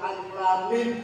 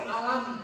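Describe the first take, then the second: First: Each letter name is said separately. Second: The letters are run together as one word. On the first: The speaker calls it right. "dengan ilmu tajwid kita tahu ini baca alif lam mim" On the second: The speaker calls it wrong. "Kalau nggak ada ilmu tajwid, kita nggak bisa baca Quran dengan benar. Alif lam mim dibaca alam"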